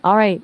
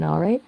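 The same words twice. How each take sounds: First: "All right" said flatly, no rise at the end; flat confirmation. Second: "All right" with the pitch rising on "right"; rising questioning tone. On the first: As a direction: confirm with a level, matter-of-fact "All right". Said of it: "if you say it flatly". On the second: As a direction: ask "All right?" as a question, lifting the end. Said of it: "say it with a rising tone". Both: Shown as a demonstration.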